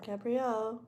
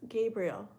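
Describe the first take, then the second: First: The ending sounds like the one in Gabriella. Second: The ending sounds plain, without the Gabriella ending. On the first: The speaker calls it wrong. "Gabrielle is like if you're going to say like Gabriella" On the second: The speaker calls it right. "But it's Gabriel, right?"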